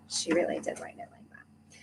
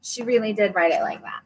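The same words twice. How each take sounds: First: A hushed, secret aside; whispered to herself, not to the audience. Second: Said in the usual way. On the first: Real, not acted. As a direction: whisper it under your breath. Repeats aside under her breath.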